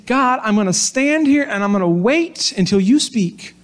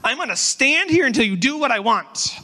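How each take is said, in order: First: Patient, trusting, hopeful wait; lightly voiced calm trust, waiting to hear back; positive tone. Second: Put-on higher, petulant demanding child; toddler tone. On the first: Preacher voicing Habakkuk's patient hope to God, gently trusting. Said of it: "was that a positive tone". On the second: Preacher mimicking his toddler demanding from God, mock petulant whine. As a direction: stomp your foot like a stubborn toddler. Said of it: "more like a toddler".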